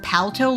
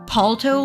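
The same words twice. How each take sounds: First: The first vowel sounds like in pal. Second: The first vowel sounds like in alto. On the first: "like a pal, like a synonym for being a friend" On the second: "like alto, like the musical term"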